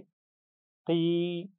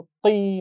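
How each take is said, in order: First: की said gently, held long without force; relaxed kee. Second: की pushed hard and high; forced kee. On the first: Teacher shows students the right way: relaxed की. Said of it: "आराम से पढ़ेंगे". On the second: Teacher shows students the wrong way: forced की. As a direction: punch की too hard, the wrong way. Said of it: "जोर लगा कर नहीं पढ़ना". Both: Shown as a demonstration.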